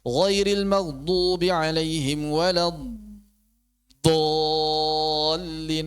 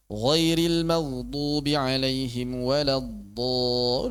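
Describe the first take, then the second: First: "walad dallin" with the long vowel overstretched; overlong madd. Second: "walad do" with the vowel held one beat only; correct short madd. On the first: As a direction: drag "dallin" far too long. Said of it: "Gak usah panjang-panjang". ("walad dallin" dipanjangkan berlebihan) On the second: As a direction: keep the long vowel short and even. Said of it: "Udah satu harokat aja". ("walad do" cukup satu harokat) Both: Shown as a demonstration.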